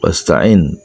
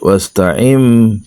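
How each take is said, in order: First: The word ends with an n sound. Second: The word ends with an m sound. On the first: It is read as ordinary Arabic, not as Quran. "enggak pakai tajwid bacanya" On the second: It is read with Quranic recitation rules. "Kalau bacanya pakai tajwid, ... iklab ya"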